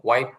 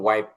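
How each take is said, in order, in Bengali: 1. স্বরধ্বনিটি 'eye' এর মতো উচ্চারিত হয়। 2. স্বরধ্বনিটি 'eye' এর মতো উচ্চারিত হয়।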